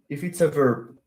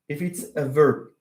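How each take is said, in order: Both takes have the same delivery.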